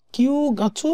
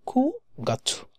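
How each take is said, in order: First: কিউ গাছু said slowly with a drawn-out "kiu"; slow, careful কিউ গাছু shown as the mistake; wrong pronunciation. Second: খু গাছু with a short "ku" as the first syllable; খু গাছু, ku-gatsu, said clipped as the right form; correct pronunciation. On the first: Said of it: "বলে না". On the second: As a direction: say খু গাছু with a quick "ku". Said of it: "so এটা হবে খু গাছু". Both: Shown as a demonstration.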